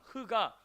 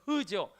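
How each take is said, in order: First: The h is a harsh, rasping sound from the throat. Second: The h is a soft, plain breath of air. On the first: This is how the sound is made in the foreign language. "이 히브리어 특성상 흐가" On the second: This is how the sound is made in the speaker's own language. "우리는 흐죠"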